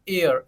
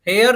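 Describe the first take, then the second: First: The word begins with a vowel sound. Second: The word begins with an H sound. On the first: The speaker calls it right. "H silent हो जाएगा" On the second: The speaker calls it wrong. "हेयर नहीं बोलेंगे इसको"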